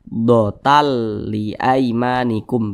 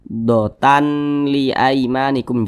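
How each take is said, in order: First: The n sound merges into the l. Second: The n sound is kept before li. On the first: The speaker calls it right. "Tanwinnya ini dimasukkan ke huruf lam" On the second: The speaker calls it wrong. "Jangan dibaca dotan li aimanikum"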